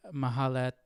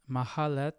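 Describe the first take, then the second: No difference in how they are said.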